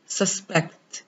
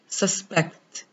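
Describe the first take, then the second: First: The stress is on the second syllable. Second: The same.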